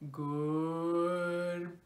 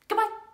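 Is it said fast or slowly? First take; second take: slowly; fast. First: It is said very slowly. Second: It is said very fast.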